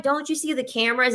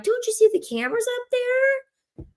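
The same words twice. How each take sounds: First: High, quick mock-alarmed question; mock warning. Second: Very high, squeaky mock-alarmed question. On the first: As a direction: warn him in a raised pitch, quickly. Acts out warning client. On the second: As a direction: shoot way up into a squeak. Repeats warning, pointing at camera.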